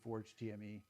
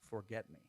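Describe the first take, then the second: First: The last part is spelled out letter by letter. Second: It is read as the words forget me. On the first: "Some people say Forge T M E" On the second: "it is actually Forget Me"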